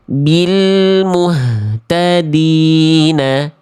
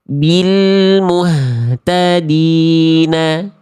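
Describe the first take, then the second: Both takes have the same delivery.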